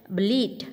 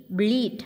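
The two takes are said the same way.

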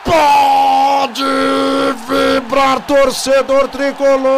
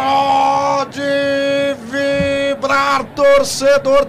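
First: Loud held celebration call; explosive goal commentary. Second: Long held goal cry; explosive goal commentary. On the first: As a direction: shout for the fans. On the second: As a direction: stretch each word, shouting. Goal celebration call. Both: Real, not acted.

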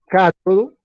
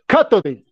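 First: "cátodo" ending in a clear o; Spanish "cátodo", stressed on the first syllable; Spanish pronunciation. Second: "cátode" ending in e, not o; German-style "cátode", punched first syllable, e at the end; translated German pronunciation. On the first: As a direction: say "cátodo" as KAH-to-do, the Spanish word. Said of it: "a ver, del español". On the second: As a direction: say "cátode" as KAH-to-de. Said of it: "el internet me ayudó". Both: Shown as a demonstration.

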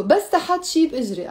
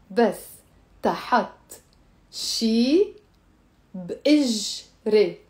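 First: Quick run-through of the phrase; fast. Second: Word by word, drawn out; spaced out for students to repeat; slow. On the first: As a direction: rattle it off as one linked phrase. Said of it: "I said it fast". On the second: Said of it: "Let me say it slow". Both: Shown as a demonstration.

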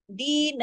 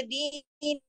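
First: Long दी, then a brief na; short final noon. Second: दीन with both dee and final naa drawn out; wrongly stretched noon. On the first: Teacher shows the correct ending, दीन with a short final na. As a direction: hold दी but clip the na short. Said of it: "नून को नहीं खींचेंगे ज्यादा". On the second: Teacher demonstrates the mistake, दीन with an over-stretched final naa. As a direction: drag the ending of दीन into a long naa. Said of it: "नून को भी खींच देंगे". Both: Shown as a demonstration.

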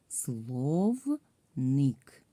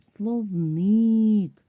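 First: "Словник" slowly, in two separated syllables; split into syllables. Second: "Словник" called out high and loud, last syllable drawn out; calling the word out. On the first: Teacher divides the word for pupils, "Словник" syllable by syllable. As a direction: break "Словник" into слов and ник, stretched out. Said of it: "ділимо на склади". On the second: Teacher shows pupils where stress falls, "Словник" called out long. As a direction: hail "Словник" like calling someone, stretching the stressed ник. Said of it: "треба слово погукати". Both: Shown as a demonstration.

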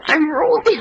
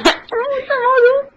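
First: Said in the usual way. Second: High, slow squeaky character; cartoon voice. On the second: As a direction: stretch it out way up high. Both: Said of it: "One hundred impressions".

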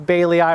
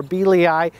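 First: Baileyii said BAY-lee-eye; alternative pronunciation. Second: Bealii said BEE-lee-eye; alternative pronunciation. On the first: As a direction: say baileyii with a long A, "bay", in the first syllable. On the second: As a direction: say Bealii with a long E, "bee", in the first syllable. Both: Shown as a demonstration. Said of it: "however you wanna pronounce it".

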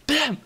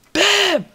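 First: High, short bam; punchy exclamation. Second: Very high, loud bam; big triumphant shout. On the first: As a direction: pop it out as a sound effect. Punctuates piston-making demonstration. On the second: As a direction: explode on it, much bigger. Bigger repeat of the first bam. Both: Shown as a demonstration.

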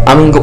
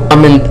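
No difference in how they are said.

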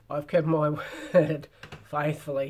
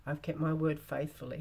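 First: Hammed-up manly voice, louder than usual. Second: Said in the usual way. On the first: A narrator's reading. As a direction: put on a big manly voice for the knight. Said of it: "in a manly voice". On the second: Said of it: "Oh, sorry".

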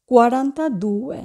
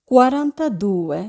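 Both takes have the same delivery.

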